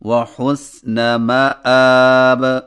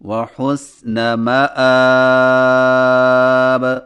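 First: The final long vowel is held one beat. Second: The final long vowel is held two beats. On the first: "ایک الف" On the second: "دو الف"

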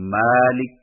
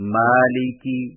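First: The word ends on a bare consonant. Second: The word ends with a short vowel. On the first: The reader stops on the word. "جزم لگا کر وقف کریں" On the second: The reading continues without a stop. "جب آخری حرف پر زبر، زیر، پیش"

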